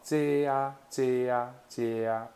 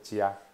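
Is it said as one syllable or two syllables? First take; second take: two syllables; one syllable. First: Two separate syllables are heard. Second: The two syllables fuse into one. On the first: "你若念较紧嘞" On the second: "变成加"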